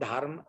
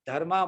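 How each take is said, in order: First: The word ends on the final consonant sound. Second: The word ends with an added a vowel. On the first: The speaker calls it right. "धर्म को" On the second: The speaker calls it wrong. "धर्मा बोलते हैं"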